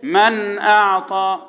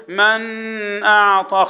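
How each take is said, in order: First: Don't hold the noon of من before اعطى; intoned من with a clean noon, then اعطى; correct izhar demo. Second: Noon of من wrongly held long before اعطى; slow chant with a stretched nasal noon in من; wrong izhar demo. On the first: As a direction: clear noon in من, released straight into اعطى. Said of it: "اقول ايه". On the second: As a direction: hum on the noon in من, then say اعطى. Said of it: "ما ينفعش اقول ايه". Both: Shown as a demonstration.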